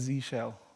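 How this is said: The letter name is said the American way. The speaker calls it right. "only works if you're from the States"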